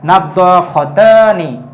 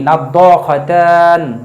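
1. শব্দটি শেষে একটি 'i' স্বরধ্বনি দিয়ে শেষ হয়। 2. শব্দটি শেষের স্বরধ্বনি ছাড়া শেষ হয়।

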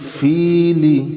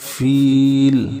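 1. শব্দটি ছোট i স্বরধ্বনি দিয়ে শেষ হয়। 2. শব্দটি l ব্যঞ্জন দিয়ে শেষ হয়। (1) "লাম জের লি" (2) "থামলে হবে ফিল"

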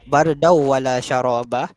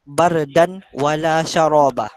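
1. Bunyi n menyatu dengan bunyi w setelahnya. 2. Bunyi n diucapkan dengan jelas sebelum w. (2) "Ada orang baca bardan wala syaraba"

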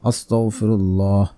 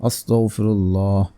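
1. শব্দটি পূর্ণভাবে ও সতর্কভাবে উচ্চারিত হয়েছে। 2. শব্দটি পূর্ণভাবে ও সতর্কভাবে উচ্চারিত হয়েছে।

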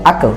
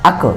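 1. শেষের k কলকলার প্রতিধ্বনি সহ ছাড়া হয়। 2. শেষের k কলকলার প্রতিধ্বনি সহ ছাড়া হয়।

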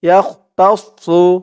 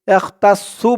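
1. শেষের s ধ্বনিটি ভরাট ও ভারী শোনায়। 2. শেষের s ধ্বনিটি পাতলা ও হালকা শোনায়। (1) "সদের উচ্চারণটা করার সময় মুখটা একটু ভরপুর হয়ে যাবে" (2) "ইয়াহ তাস সু বলা যাবে না। সু বললে কিন্তু সিনের উচ্চারণ চলে আসবে"

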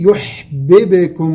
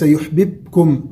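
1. الباء الثانية فيها قلقلة. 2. الباء الثانية ليس فيها قلقلة. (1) "الباء الثانية في يحببكم باء ساكنة مقلقلة" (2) "وليس يحببكم"

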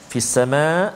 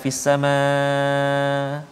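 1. Kata ini berakhir dengan hentian glotal. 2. Kata ini tidak berakhir dengan hentian glotal. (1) "hamzah kena ada kat ujung tu" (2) "hamzah tak ada, tak boleh"

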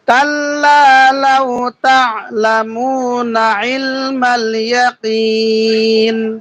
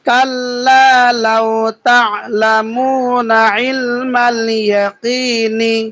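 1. শেষ শব্দটি থামে, তার দীর্ঘ স্বর টেনে। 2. শেষ শব্দটি একটি হ্রস্ব শেষ স্বরধ্বনি দিয়ে শেষ হয়। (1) "ওয়াকফ সাকিন করিয়া পড়িতে হয়, ... মাদ্দে আরজি তিন আলিফ টানিয়া পড়িতে হয়" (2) "হরকতের উচ্চারণ তাড়াতাড়ি পড়তে হয়"

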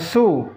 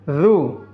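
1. Suku kata ini diawali bunyi s. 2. Suku kata ini diawali bunyi dh. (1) "jangan su" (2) "keluarkan lidahnya sedikit"

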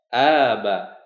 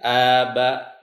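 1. Vokal panjang diayun naik turun nadanya. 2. Vokal panjang diucapkan dengan nada datar. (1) "membacanya dengan mengayun" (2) "membacanya dengan lurus"

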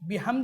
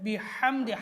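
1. h ধ্বনিটি সহজ, হালকা নিঃশ্বাসের মতো। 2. h ধ্বনিটি জোরালো, গলা থেকে আসা। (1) "বিহামদি হবে না" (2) "সেটা হচ্ছে বিহামদি, হা জিম হা"

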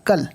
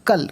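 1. স্বরধ্বনিটি হ্রস্ব ও দ্রুত। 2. স্বরধ্বনিটি হ্রস্ব ও দ্রুত।

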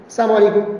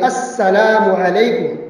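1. यह बहुत तेज़ और अस्पष्ट बोला जाता है। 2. यह धीरे बोला जाता है और हर आवाज़ साफ़ सुनाई देती है। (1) "इतनी जल्दी से और ऐसा बोलते हैं पता नहीं चलता क्या बोल रहे हैं" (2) "अब साफ बोलिए"

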